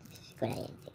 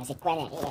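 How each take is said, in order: First: Breathy whispered question, voice dropped out; hushed mystery whisper. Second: Said in the usual way. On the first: Acted. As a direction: lean in and whisper it like a secret. Whispered question, repeated plainly after.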